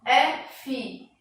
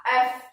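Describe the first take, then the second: First: "F" dito "é-fi", em duas sílabas; pronúncia em português. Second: "F" dito "éf", numa sílaba só; pronúncia em inglês. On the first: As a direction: separe "F" em "é" e "fi". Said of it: "em português, a transcrição fonética da letra F". ("F" como "éfi", à portuguesa) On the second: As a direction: corte o "i" final de "F". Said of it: "enquanto a transcrição na língua inglesa será". ("F" como "ef", à inglesa) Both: Shown as a demonstration.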